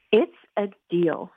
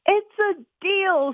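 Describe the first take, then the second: First: Said in the usual way. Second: High, slow, eager shout. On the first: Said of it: "said Pat". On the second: Acted. Boy shouts agreement to his sister while running outside. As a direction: fire it off, already heading out the door. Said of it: "shouted Mike".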